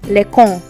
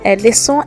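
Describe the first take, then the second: First: The c is pronounced as a k sound. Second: The c is pronounced as an s sound. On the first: The speaker calls it wrong. "which is wrong" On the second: The speaker calls it right. "the accent cedille is there to ensure that we have the sound"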